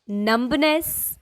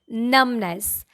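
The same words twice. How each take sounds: First: The middle B is sounded. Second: The middle B is silent. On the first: The speaker calls it wrong. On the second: The speaker calls it right. "mid B is silent here"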